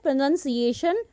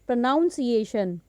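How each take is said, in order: First: The second syllable sounds like 'nun'. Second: The second syllable sounds like 'noun'. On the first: The speaker calls it right. "हम क्या बोलते हैं" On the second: The speaker calls it wrong. "नॉट"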